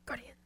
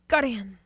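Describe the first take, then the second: First: It is said at normal volume. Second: It is said loudly.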